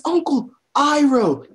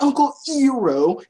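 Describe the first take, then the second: First: "Iroh" starting like "eye"; correct Iroh pronunciation. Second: "Iroh" starting with "ee"; mispronounced Iroh. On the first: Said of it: "they say his name in the show". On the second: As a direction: say "Iroh" as "EE-roh", rising. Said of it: "not Uncle Iroh". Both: Shown as a demonstration.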